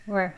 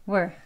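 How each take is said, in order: Both takes have the same delivery.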